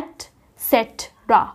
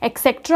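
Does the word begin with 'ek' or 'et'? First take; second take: et; ek. First: The word begins with an 'et' sound. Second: The word begins with an 'ek' sound. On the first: The speaker calls it right. "इसको हम बोलते हैं एट सेट्रा" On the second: The speaker calls it wrong. "हम इसको नहीं बोलते हैं"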